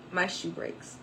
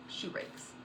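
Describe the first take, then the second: First: Said in the usual way. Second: Whispered in disbelief; hushed disbelief as the heel snaps; stunned whisper. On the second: Real, not acted. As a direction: whisper it, crushed. Dismay at broken heel.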